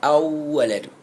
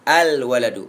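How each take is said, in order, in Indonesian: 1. L menyatu dengan w yang ganda. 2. Bunyi l terdengar jelas sebelum w.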